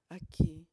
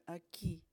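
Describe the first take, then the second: First: Aquí punched much louder; the stressed word aquí, almost shouted. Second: Said in the usual way. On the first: Shown as a demonstration. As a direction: hit aquí hard and loud. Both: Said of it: "vamos a enfatizar la palabra aquí".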